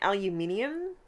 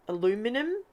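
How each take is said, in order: First: It is said the Australian way, aluminium. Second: It is said the overseas way, aluminum.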